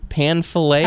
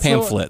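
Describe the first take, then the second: First: The first syllable ends with an N sound. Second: The first syllable ends with an F sound. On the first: "Pan with an N" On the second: "I say it with an F sound"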